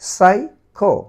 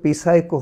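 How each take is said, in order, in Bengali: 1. শব্দটি s উচ্চারণ দিয়ে শুরু। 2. শব্দটি উচ্চারিত p দিয়ে শুরু।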